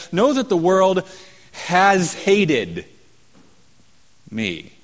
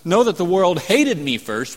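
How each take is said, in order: First: "has hated" pushed higher and louder, slowed; stress on has hated. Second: Said in the usual way. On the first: Shown as a demonstration. Preacher corrects the translation, stressing "has hated". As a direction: lean hard on "has hated" to show the perfect tense. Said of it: "we say". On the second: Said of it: "Instead of".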